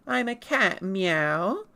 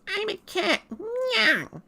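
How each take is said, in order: First: Said in the usual way. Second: Very high, cute cartoon cat voice; Japanese Meowth. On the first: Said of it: "in English, you go like". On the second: Streamer shows how the Japanese Meowth sounds, cutely high. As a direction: squeak it like the original Japanese cat. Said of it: "Meowth goes".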